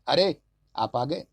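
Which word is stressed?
अरे. The stress is on the first word.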